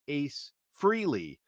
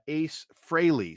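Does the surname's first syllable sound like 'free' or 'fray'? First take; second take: free; fray. First: The surname's first syllable sounds like 'free'. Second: The surname's first syllable sounds like 'fray'. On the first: The speaker calls it wrong. "but apparently that is incorrect" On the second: The speaker calls it right. "if it's Fraley rather than Freely"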